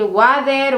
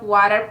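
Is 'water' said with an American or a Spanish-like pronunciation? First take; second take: Spanish-like; American. First: The word is said with a Spanish-like pronunciation. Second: The word is said with an American pronunciation. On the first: The speaker calls it wrong. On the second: The speaker calls it right.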